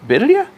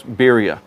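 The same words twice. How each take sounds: First: "Birria?" tried with a rolled r, rising high like a question; "Birria?" with an attempted trilled r and a questioning rise. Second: "Birria," said with a plain English r, no roll, falling. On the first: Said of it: "I don't think that's how you say it". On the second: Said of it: "I'm not very good at rolling my R's". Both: Shown as a demonstration.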